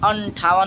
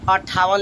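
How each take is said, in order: First: The first syllable has a nasal sound. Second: The first syllable has no nasal sound. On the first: The speaker calls it right. "यहाँ भी अंठावन होगा" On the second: The speaker calls it wrong. "अट्ठावन लिखा है"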